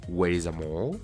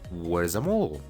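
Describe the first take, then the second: First: Where and is are said as separate words. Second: Where and is are joined into one syllable. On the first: The speaker calls it wrong. "En vez de decir" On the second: The speaker calls it right. "mejor di"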